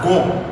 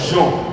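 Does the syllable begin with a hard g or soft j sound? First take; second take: hard g; soft j. First: The syllable starts with a hard g sound. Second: The syllable starts with a soft j sound. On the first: The speaker calls it wrong. "if you don't add the E, it will sound as gon" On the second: The speaker calls it right. "instead of Jean"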